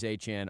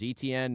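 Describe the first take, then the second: First: The name is said starting with an A sound. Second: The name is said starting with an E sound. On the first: The speaker calls it right. "Achane is the correct one" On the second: The speaker calls it wrong. "I want to say Etienne because I'm seeing the E how it's spelled"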